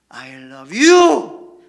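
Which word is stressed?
you. The stress falls on the word you. The love is for this person and nobody else. "나는 너를 사랑해. 저 여자가 아니야"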